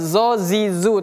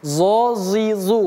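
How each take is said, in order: First: The z sound is light and thin. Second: The z sound is heavy and thick. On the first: The speaker calls it wrong. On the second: The speaker calls it right. "tapi zo zi zu, huruf tebal juga"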